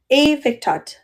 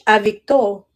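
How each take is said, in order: First: The final T sound is clearly pronounced. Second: The final T sound is dropped, French style.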